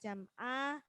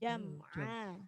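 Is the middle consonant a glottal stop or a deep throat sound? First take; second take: glottal stop; throat sound. First: The middle consonant is a glottal stop. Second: The middle consonant is a clear throat sound. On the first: The speaker calls it wrong. "jangan jam'a. Nanti seperti hamzah" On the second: The speaker calls it right. "Jadi a ditampakkan jam'a"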